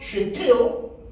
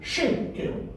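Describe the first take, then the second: First: The stress is on the second syllable. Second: The stress is on the first syllable. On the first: The speaker calls it wrong. "So the word is not shekel, in other words, put emphasis on the second syllable" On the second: The speaker calls it right. "you put emphasis on the first syllable. The word is shekel"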